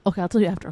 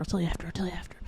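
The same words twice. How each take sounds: First: Said in the usual way. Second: Soft secretive whisper. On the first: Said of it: "same words said aloud". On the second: Real, not acted. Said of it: "whispered tease".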